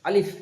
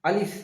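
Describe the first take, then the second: Both takes have the same delivery.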